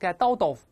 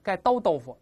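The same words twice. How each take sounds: First: The t sounds are hit hard and separate. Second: The t sounds are hit hard and separate.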